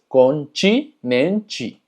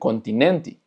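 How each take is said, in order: First: The final syllable sounds like 'chi'. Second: The final syllable sounds like a plain 'te'. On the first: "termina en te, entonces es continente" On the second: "podrá haber lugares donde digan"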